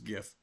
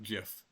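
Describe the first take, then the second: First: It begins with a hard G sound. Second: It begins with a soft G sound. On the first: The speaker calls it right. "it's GIF, ... Graphics is a hard G" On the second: The speaker calls it wrong. "not GIF"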